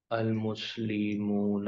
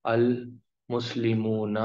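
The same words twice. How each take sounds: First: المسلمون repeated slowly and softer; quiet second model of المسلمون. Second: المسلمون drawn out slowly with a long oon ending; teacher modelling المسلمون slowly; slow model word. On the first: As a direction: echo المسلمون gently at half speed. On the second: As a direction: stretch المسلمون so the ending is clear. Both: Shown as a demonstration. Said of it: "اونا کی آواز آئے گی".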